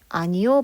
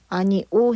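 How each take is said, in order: First: A y-glide is inserted before the final vowel. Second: The final vowel is said plainly without a glide. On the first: This is an allowed, easier form. "발음해도 괜찮다" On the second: This is the standard form. "해야 되는데"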